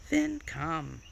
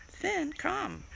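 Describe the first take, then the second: First: Said in the usual way. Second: High-pitched coaxing call; high dog call. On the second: Real, not acted. Owner calling Finn to come, high-pitched call.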